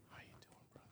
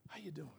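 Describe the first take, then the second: First: Whispered "How you doing, brother?"; a hushed, unvoiced greeting. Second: Softer, low-key how you doing; quiet greeting. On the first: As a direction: breathe it, no voice. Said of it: "Same words". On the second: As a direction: say it under your breath. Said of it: "if I say". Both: Shown as a demonstration.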